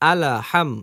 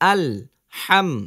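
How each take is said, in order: First: An extra a vowel follows the l. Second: The l closes the syllable with no added vowel. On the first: The speaker calls it wrong. "এটা কিন্তু ভুল।" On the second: The speaker calls it right. "আল বলে একটু সময় দেরি করবেন"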